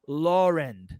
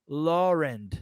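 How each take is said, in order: No difference in how they are said.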